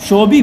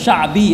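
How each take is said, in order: First: The first vowel sounds like 'o'. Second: The first vowel sounds like 'a'. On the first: The speaker calls it wrong. "शोबी भी नहीं है ये लफ्ज़" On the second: The speaker calls it right. "ये लफ्ज़ शाबी है"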